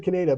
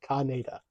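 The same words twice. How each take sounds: First: Kaneda as kuh-NAY-da; short "kuh", then stressed "nay" in Kaneda; habitual pronunciation. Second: Kaneda as KAH-NAY-da; film pronunciation. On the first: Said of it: "I've always said Kaneda". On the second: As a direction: open "kah" at the start of Kaneda, then "nay". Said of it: "in the films, it's always pronounced". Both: Shown as a demonstration.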